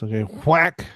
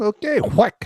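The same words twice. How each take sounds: First: It is said in the speaker's ordinary accent. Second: It is said in a haughty French accent. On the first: The speaker calls it wrong. "I did not do that in a French accent" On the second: The speaker calls it right. "Let me put my nose in the air and say it again"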